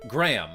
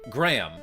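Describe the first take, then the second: First: The name is said as one syllable. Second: The name is said as one syllable.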